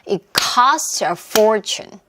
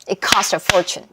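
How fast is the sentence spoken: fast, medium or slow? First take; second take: slow; fast. First: The sentence is spoken at a slow pace. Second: The sentence is spoken at the quickest pace.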